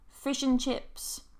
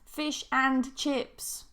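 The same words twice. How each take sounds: First: The word and is reduced and linked. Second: The word and is said fully and clearly. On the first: The speaker calls it right. "Sounds a lot more natural" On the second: The speaker calls it wrong.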